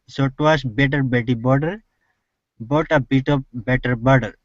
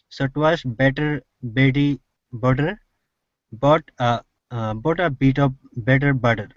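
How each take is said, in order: First: It is said at a faster pace. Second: It is said at a normal, hesitant pace.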